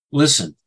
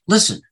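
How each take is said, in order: First: Said in the usual way. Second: "Listen." barked out high and loud as an order; commanding call. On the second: Shown as a demonstration. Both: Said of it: "it's used like a command".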